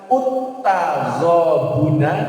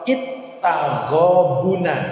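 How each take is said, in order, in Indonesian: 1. Kata ini diawali dengan vokal u. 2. Kata ini diawali dengan vokal i. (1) "Tidak boleh dibaca" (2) "Tidak boleh dibaca"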